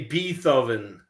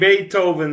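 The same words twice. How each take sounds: First: The name is pronounced in a joking, altered way. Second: The name is pronounced in the usual standard way. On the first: "they would say Beethoven" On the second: "Instead of saying Beethoven"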